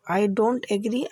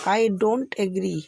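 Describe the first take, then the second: First: Said in the usual way. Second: Very slow, every word spaced apart; slow teaching demo. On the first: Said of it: "आप बोलेंगे". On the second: Shown as a demonstration. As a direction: lay it out slowly for the class. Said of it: "तो आप आज से English में क्या बोलेंगे". (धीमे-धीमे समझाते हुए)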